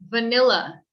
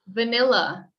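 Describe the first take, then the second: No difference in how they are said.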